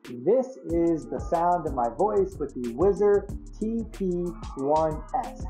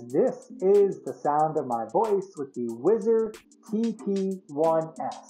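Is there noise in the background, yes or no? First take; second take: yes; no. First: The voice is heard over background noise. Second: The voice is heard without background noise. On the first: "Let's go ahead and introduce the ambient noise in the background"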